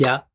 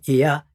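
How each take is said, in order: First: The i and a merge into one sound. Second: The i and a sound as two separate parts. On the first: The speaker calls it right. "一緒にくっついてるのを、や、やとする" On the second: The speaker calls it wrong. "別々にいや、いやじゃなくて"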